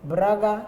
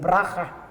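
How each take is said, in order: First: The middle consonant is a soft g sound. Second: The middle consonant is a harsh j sound. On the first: The speaker calls it right. "cuando dicen braga" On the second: The speaker calls it wrong. "dicen braja"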